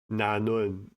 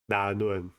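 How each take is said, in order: First: The first consonant is a full nasal n. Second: The first consonant is denasalized, close to d. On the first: "instead of saying na nun" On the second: "you say da nun"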